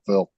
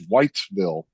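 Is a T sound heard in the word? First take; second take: no; yes. First: The T is dropped, sounding like 'why'. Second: The T is clearly pronounced, like 'white'. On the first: "with no T or anything"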